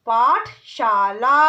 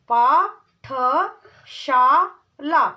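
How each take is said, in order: First: पाठशाला said whole and firm; whole word. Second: पाठशाला drawn out very slowly; syllable by syllable. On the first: Teacher blending पाठशाला. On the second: Teacher sounding out पाठशाला. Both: Shown as a demonstration. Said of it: "ऐसे ही".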